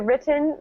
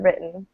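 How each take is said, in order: First: The middle t is clearly and fully pronounced. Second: The middle t is reduced and not fully pronounced. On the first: It sounds more British. "that sounds a bit more like British English, I suppose. They really pronounce things more" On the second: It sounds like fast American speech. "if an American is speaking fast, you'll hear written"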